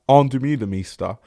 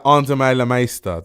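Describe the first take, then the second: First: The name is said with an English pronunciation. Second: The name is said with its native pronunciation. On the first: "I might say it the English way" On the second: "That's how you say her name"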